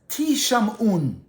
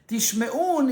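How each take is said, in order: First: The word is said as ti-sham-un. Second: The word is said as tish-me-un. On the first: You will be heard. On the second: You will hear.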